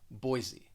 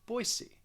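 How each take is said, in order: First: The middle consonant sounds like a Z. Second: The middle consonant sounds like an S. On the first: This is how most speakers nationally say it. "they're going to pronounce the S more like a Z" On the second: This is how local people may say it. "locally, people may pronounce it with an S"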